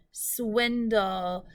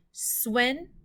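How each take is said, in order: First: Said in the usual way. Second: "swindle" broken in two with a long pause; syllable by syllable. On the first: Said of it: "Let's sound out the syllables". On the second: Shown as a demonstration. Teacher tapping out syllables for pupils, "swindle" split syllable by syllable. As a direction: tap out "swindle" as two separate beats. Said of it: "Let's tap those out".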